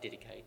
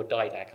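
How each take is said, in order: First: Didache said the accepted way; accepted pronunciation. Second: Didache said the speaker's preferred way; preferred pronunciation. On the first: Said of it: "I think it's pronounced Didache". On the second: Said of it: "I think I prefer to pronounce it". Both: Shown as a demonstration.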